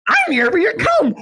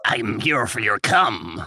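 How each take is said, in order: First: High squeaky goblin voice. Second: A hint of a creepy goblin. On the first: Pretend. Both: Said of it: "the Cum Goblin voice".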